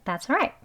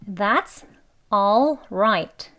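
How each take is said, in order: First: The word 'all' is reduced to a weak 'uh'. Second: The word 'all' is pronounced fully. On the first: "아주 빨리 발음하게 되면" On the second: "이렇게 원래는 all right 단어의 발음"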